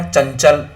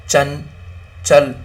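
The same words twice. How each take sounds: First: Said in the usual way. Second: चंचल drawn out very slowly; slow nasal demo. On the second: Shown as a demonstration. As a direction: stretch चंचल with the nasal held. (चंचल को बहुत धीरे नाक से खींचकर) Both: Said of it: "और अपना हो गया क्या".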